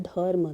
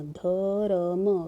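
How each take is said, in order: First: Said in the usual way. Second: धर्म drawn out slowly as ध, र, म; sounded out slowly. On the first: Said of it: "इसका उच्चारण हमें, सुनने को मिल रहा". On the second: Shown as a demonstration. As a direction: stretch धर्म so each of its three sounds is heard in turn. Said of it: "पहले हमने ध का उच्चारण किया". (धर्म को धीरे-धीरे ध-र-म खींचकर)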